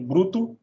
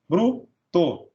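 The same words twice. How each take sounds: First: Said in the usual way. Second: "bruto" broken as bru, pause, to; split into syllables. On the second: Shown as a demonstration. Teacher dividing "bruto" into bru and to, syllable by syllable. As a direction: keep bru together in "bruto", then a separate to. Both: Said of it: "Vem junto a consoante L ou R".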